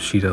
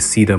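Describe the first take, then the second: First: The name begins with an sh sound. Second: The name begins with a plain s sound. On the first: The speaker calls it wrong. "instead of Sheeta like I used to" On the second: The speaker calls it right. "I've been trying to say Sita more"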